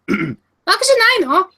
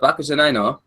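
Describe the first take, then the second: First: It is said in a put-on girlish voice. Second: It is said in his normal speaking voice.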